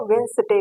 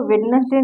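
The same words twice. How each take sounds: First: वेडनेसडे as "wenz-day", d silent; वेडनेसडे without the d; correct pronunciation. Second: वेडनेसडे spelled out, "wed-nes-day"; वेडनेसडे in three full syllables; wrong pronunciation. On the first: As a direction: say वेडनेसडे in two syllables. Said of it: "इसको वेडनेसडे कहते हैं". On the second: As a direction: say वेडनेसडे with every letter sounded. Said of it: "इसको वेडनेसडे नहीं कहते". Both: Shown as a demonstration.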